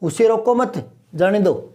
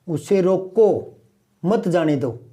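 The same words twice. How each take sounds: First: The pause comes after 'mat'. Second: The pause comes after 'roko'. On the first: Do not stop him; let him go. "अब यहां मैं नहीं रुकूं, यहां रुकूं तो" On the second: Stop him; do not let him go. "अब ये दोनों शब्द मैंने एक साथ बोले हैं, उसे रोको मत जाने दो मतलब थोड़ी देर बिठाए रखो।"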